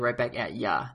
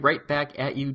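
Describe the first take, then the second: First: The last word is reduced to 'ya'. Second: The last word is a full 'you'. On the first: The speaker calls it right. "I guess I should say Right Back At Ya" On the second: The speaker calls it wrong. "not you"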